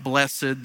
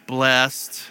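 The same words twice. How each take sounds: First: The word is said with two syllables. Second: The word is said with one syllable. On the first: This is an old-fashioned way of saying it. The speaker calls it wrong. "not blessed. That's old school" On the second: This is the way it is said here. The speaker calls it right. "We say blessed here"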